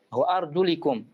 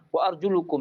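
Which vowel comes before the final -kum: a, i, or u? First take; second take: i; u. First: The vowel before -kum is i. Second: The vowel before -kum is u. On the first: The speaker calls it right. "boleh dibaca wa arjulikum" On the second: The speaker calls it wrong. "qiraah yang syadz, dhammah"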